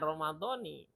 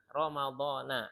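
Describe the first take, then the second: First: The word ends with an 'i' sound. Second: The word ends with an 'a' sound. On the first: The speaker calls it wrong. "jangan Ramadhani ya" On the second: The speaker calls it right. "Ramadhana ya, karena nggak ada i dia"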